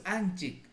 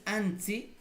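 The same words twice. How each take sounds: First: Anchik with "ch" and final k; "anchik" with a ch sound, not s; correct suffix form. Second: Ansi with "ts" for ch, no k; "ansi" with a hissed ts and no final k; wrong suffix form. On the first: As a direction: say anchik, closing on a k. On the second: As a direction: say ansi as "antsi", open ending. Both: Shown as a demonstration. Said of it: "No es ansi".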